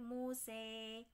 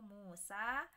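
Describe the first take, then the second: First: The final vowel is tilted toward an e sound. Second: The final vowel is a plain open a sound. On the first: The reciter stops on this word. "Musa menjadi Muse ... itu namanya wakaf kisai" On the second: The reciter continues without stopping. "kalau tidak wakaf maka dibaca seperti hafes biasa"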